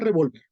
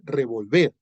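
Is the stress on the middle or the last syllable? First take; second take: middle; last. First: The stress is on the middle syllable. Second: The stress is on the last syllable. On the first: It means the pistol. "Si no le pone la tilde a la O, no dice revólver" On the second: It means to stir. "dice revolver"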